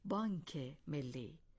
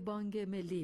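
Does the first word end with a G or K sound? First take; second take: K; G. First: The first word ends with a k sound. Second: The first word ends with a g sound. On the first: The speaker calls it right. "درست این است که بگوییم بانک ملی" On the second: The speaker calls it wrong.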